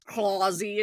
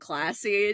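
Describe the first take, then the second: First: It is said with a British-sounding accent. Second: It is said with a plain American accent. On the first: "she says classy" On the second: "instead of classy"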